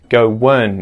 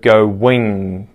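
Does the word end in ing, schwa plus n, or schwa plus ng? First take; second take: schwa n; ing. First: The ending is a schwa followed by n. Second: The ending is a full ing sound. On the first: "has been contracted into an N sound" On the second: "instead of go wing"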